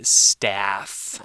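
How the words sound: It is said with an American accent. "if you're from the United States or you speak American English, you'd say staff"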